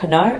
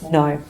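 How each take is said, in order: First: A K sound is heard before the N. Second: The word starts with N, no K sound. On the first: The speaker calls it wrong. "isn't kno" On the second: The speaker calls it right. "it's no"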